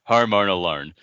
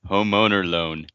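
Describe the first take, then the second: First: It is said in a non-American accent. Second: It is said in an American accent.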